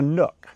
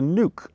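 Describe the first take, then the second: First: The vowel is short, as in book. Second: The vowel is long, as in food. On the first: It names a small indentation in a wall. The speaker calls it wrong. "not a nook" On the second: It is short for nucleus. The speaker calls it right. "the right way to say it is nuke"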